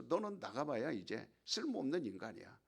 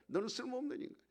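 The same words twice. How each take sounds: First: Said in the usual way. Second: Higher, sneering repeat of the insult; taunting devil. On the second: Acted. Preacher voicing the devil at the despairing actor, high sneering taunt. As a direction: needle him with 쓸모없는 rising at the end. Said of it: "마귀가 공격하는 거야".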